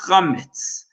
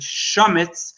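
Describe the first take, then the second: First: The word begins with a guttural throat sound. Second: The word begins with a soft sh sound. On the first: The speaker calls it right. "it's really pronounced chametz" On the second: The speaker calls it wrong. "some people pronounce it shametz"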